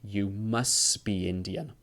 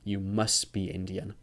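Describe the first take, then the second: First: The t at the end of 'must' is dropped. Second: The t at the end of 'must' is dropped.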